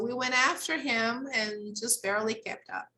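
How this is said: There is a pause between him and and. "if we decide to pause here, it's okay"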